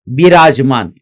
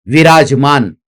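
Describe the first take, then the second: Both takes have the same delivery.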